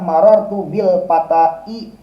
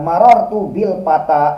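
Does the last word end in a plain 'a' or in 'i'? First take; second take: i; plain a. First: The last word ends with an added 'i' sound. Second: The last word ends in a plain long 'a'. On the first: The speaker calls it wrong. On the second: The speaker calls it right.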